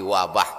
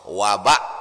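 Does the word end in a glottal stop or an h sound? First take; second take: h sound; glottal stop. First: The word ends with an h sound. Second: The word ends with a glottal stop. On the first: This is the form borrowed into Indonesian. "berubah jadi ha" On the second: This is the original Arabic form. "ujungnya hamzah"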